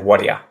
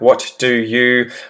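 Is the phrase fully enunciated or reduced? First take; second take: reduced; enunciated. First: The words blend into one quick reduced form. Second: Every word is pronounced fully and separately. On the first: "if I were to say whatia" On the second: "always enunciate really well and say every letter in every word"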